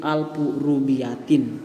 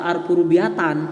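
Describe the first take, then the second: First: The last word ends in the vowel i plus n. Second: The last word ends in the vowel a plus n. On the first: The speaker calls it right. "tapi alfu rubiatin" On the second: The speaker calls it wrong. "tidak dibaca alfu rubiatan"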